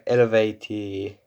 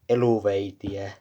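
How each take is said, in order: First: The name is said with its original pronunciation. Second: The name is said with a Finnish pronunciation. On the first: The speaker calls it right. "if you want to pronounce it correctly" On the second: The speaker calls it wrong. "here in Finland we say"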